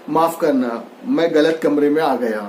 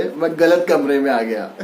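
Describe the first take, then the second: First: Light laugh through the words; sorry said with an embarrassed little laugh; laughing apology. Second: Said in the usual way. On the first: A narrator's reading. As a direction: apologise sheepishly with a chuckle. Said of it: "फिर धीरे से हंसते हुए बोला". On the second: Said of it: "मुझे sorry बोले".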